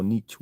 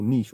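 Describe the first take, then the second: First: "niche" said as "nitch"; rhymes with pitch. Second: "niche" said as "neesh"; rhymes with leash. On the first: Streamer offering viewers the other pronunciation, "niche" as "nitch". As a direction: say "niche" with a short i and tch ending. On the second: Streamer offering viewers either pronunciation, "niche" as "neesh". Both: Shown as a demonstration. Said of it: "whatever people wanna call it".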